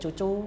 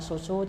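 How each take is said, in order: First: Each syllable starts with a C sound. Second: Each syllable starts with an S sound. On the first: The speaker calls it wrong. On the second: The speaker calls it right.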